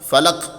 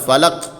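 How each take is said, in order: The two takes are said the same way.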